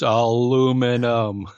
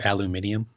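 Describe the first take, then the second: First: The word has four syllables, American style. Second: The word has five syllables, British style. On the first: The speaker calls it right. "That one drives me insane. It's aluminum" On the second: The speaker calls it wrong. "you like watch all these British shows"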